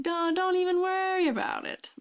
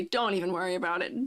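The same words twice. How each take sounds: First: High squeaky reassurance. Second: Said in the usual way. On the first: Acted. Playful reassurance to chat viewer.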